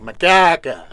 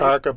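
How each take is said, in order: First: The name is said with a Norwegian accent. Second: The name is said without a Norwegian accent. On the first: It imitates how the watchman mispronounced the name. The speaker calls it wrong. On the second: It is the name as the family says it. The speaker calls it right.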